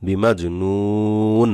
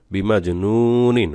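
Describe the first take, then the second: First: বিমাজ নুন very slow, long u closed on n; stopped ending. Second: বিমাজ নু নিন with long নু and short নিন; full read-through. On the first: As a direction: stretch নু and stop on the n. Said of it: "ওয়াকফ করলে". (বিমাজ নুন, নু টেনে নুনে সাকিন) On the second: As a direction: finish on a separate short নিন. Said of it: "নুন দুই জের নিন". (বিমাজ নু নিন, শেষে নিন পুরো পড়ে) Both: Shown as a demonstration.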